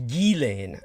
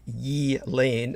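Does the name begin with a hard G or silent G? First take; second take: hard G; silent G. First: The name begins with a hard G sound. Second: The name begins without a G sound. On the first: "it is actually a hard G, as in geek" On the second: "her name is pronounced with a silent G"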